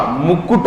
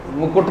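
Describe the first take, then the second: First: Firm "kut" in मुकुट; मुकुट with the second syllable leaned on; form marked correct. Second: मुकुट passed over lightly; form marked wrong. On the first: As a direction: say मुकुट as mu-kkut. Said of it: "मुकुट होता है". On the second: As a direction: say मुकुट unstressed, as the mistaken form. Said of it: "मुकुट नहीं होता". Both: Shown as a demonstration.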